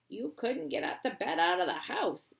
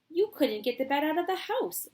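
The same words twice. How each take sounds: First: It is read in a put-on character voice. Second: It is read in the narrator's ordinary voice. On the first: The speaker calls it right. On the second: The speaker calls it wrong.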